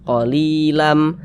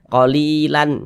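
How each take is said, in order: First: The word ends with a held nasal M sound. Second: The word ends with a clear N sound. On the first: The speaker calls it right. "Dia langsung dimasukkan ke huruf mim" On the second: The speaker calls it wrong. "Jangan dibaca qalilan, lan. Qalilan, jangan"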